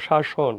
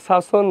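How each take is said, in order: First: শাসন with soft sh sounds, "shashon"; correct pronunciation. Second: শাসন said with a plain s for the first sound; mispronounced শাসন. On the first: Teacher correcting students' reading, শাসন clearly with sh sounds. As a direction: say শাসন softer, as "sha-shon". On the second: Teacher showing students the mistaken reading, শাসন with s sounds. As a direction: say শাসন as "sason", hissing s, not sh. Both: Shown as a demonstration. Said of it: "এটা শাসন না তো".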